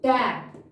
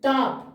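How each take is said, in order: First: The vowel is a front 'ae' sound. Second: The vowel is a long, open 'ah' sound. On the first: The speaker calls it right. "But ये कैसे क्या पढ़ेंगे हम?" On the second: The speaker calls it wrong. "नहीं"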